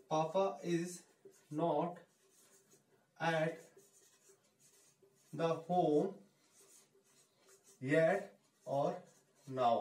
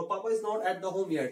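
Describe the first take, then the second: First: Words spaced apart with long pauses; slow, word by word. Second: Slow and clear; slow model line. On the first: Teacher dictating the sentence to students, word by word. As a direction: dictate it one word at a time. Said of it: "धीरे धीरे बोलना है आपको". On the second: Teacher modelling the sentence, slow and clear. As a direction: say it carefully for learners. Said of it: "जल्दी जल्दी तो आपको practice करेंगे". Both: Shown as a demonstration.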